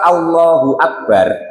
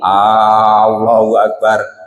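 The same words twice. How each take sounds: First: The first A vowel is short. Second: The first A vowel is drawn out long. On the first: The speaker calls it right. "usahakan A-nya pendek" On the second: The speaker calls it wrong. "Kalau A-nya dipanjangin"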